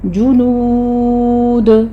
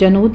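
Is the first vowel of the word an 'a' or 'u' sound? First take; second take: u; a. First: The first vowel is a rounded 'u' sound. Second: The first vowel is an open 'a' sound. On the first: The speaker calls it right. "जू होंठ गोल कर लीजिए" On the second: The speaker calls it wrong. "इसको जनूद नहीं पढ़ना"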